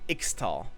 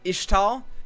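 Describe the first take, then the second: First: The middle consonant sounds like 'ks'. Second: The middle consonant sounds like 'sh'. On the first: The speaker calls it wrong. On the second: The speaker calls it right.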